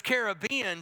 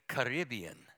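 First: "Caribbean" as care-uh-BEE-un; Caribbean stressed on BE. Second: "Caribbean" as kuh-RIB-ee-un; the sexier "Caribbean", kuh-RIB-ee-un; Caribbean stressed on RIB. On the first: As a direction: say "Caribbean" with the weight on the third syllable. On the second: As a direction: say "Caribbean" with the weight on the second syllable. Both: Shown as a demonstration. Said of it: "sound near as sexy as Caribbean".

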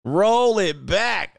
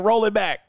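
First: Slow, stretched "Roll it back"; drawn-out repeat. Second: Said in the usual way. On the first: Real, not acted. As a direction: draw out both ROLL and BACK.

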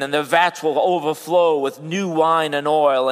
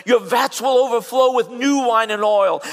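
First: Said in the usual way. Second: High and loud, proclaimed; ringing pulpit promise; preached promise. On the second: Acted. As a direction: proclaim it to the crowd. Scripture promise preached aloud.

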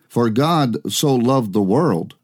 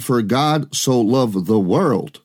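First: Said in the usual way. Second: "For God so loved the world" slowed down, weight on WORLD; slow, deliberate stress leading to "world"; emphatic requote. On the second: Shown as a demonstration. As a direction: point out the word "world" by stretching the phrase. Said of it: "Notice that he said".

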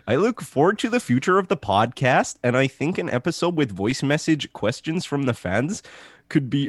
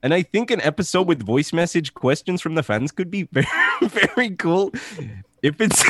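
First: Put-on Canadian accent drifting into Eastern European; slipping Canadian accent. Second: Put-on pitched-up Canadian accent, cracking up; retry the Canadian voice and start laughing; shaky attempt at Canadian accent. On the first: Host reads fan's review, Canadian accent slipping into Eastern European. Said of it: "Eastern European accent then". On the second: Host retries the review in a Canadian accent, breaking into laughter. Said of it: "I can't do the voice for too long".

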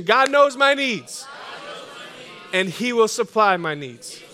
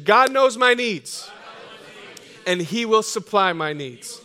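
First: With more passion. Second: Louder, slow and firm; slow, louder declaration of faith; with conviction. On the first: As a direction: push it out with full passion. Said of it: "say it with more passion, more conviction". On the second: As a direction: declare it like you believe it. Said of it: "say it with some conviction". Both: Shown as a demonstration.

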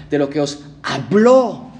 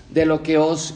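First: Slow, with "habló" pressed and falling; stress on habló. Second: Said in the usual way. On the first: Shown as a demonstration. Pastor has the congregation mark "habló", slow and stressed. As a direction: lean hard on "habló" so they mark it. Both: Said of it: "y marquen esto en sus Biblias".

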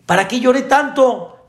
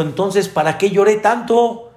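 First: Put-on much higher, louder child's outraged whine; much higher outraged child wailing at mom; indignant child. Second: Put-on higher, complaining little boy; higher child voice whining to mom; whiny child. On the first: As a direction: wail it like a kid who feels cheated. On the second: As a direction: protest like a cheated kid. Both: Child complains in joke story.

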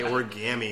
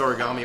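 First: Origami with a mock Boston twang, said "or-kah-mee"; odd origami pronunciation. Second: Said in the usual way. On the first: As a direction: imitate the actor's strange origami, flat "ah" in the middle. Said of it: "Was that supposed to be a bad Boston accent?". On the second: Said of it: "I don't know who says origami".

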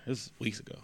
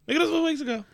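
First: Said in the usual way. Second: This was weeks ago squeaked high; high squeaky. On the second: Real, not acted.

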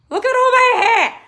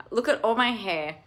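First: High, loud squeal at her own hair; delighted squeal. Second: Said in the usual way. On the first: Real, not acted. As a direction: squeal with joy.

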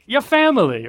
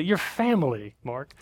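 First: High, loud Italian mobster take. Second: Lightly voiced in-law; hint of insistent relative; family insisting. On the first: Retold or imitated. Mark mimicking in-laws as Italian mobsters, high and loud. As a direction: say it like a mob boss welcoming. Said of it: "Holly's family are not Italian mobsters. I don't know why I said it like that". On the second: In-laws insisting he's family, lightly voiced. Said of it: "I'd be like".

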